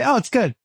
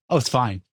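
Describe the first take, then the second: First: Higher-pitched, encouraging praise; approving. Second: Low, soft, unimpressed verdict; lukewarm. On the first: Partner praising the cook's meal, approving. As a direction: lift the voice to reassure the cook. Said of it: "No, I say". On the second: Partner judging the cook's meal, lukewarm. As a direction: give faint praise, pitched down. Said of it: "No, I say, "Oh, it's good". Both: Shown as a demonstration.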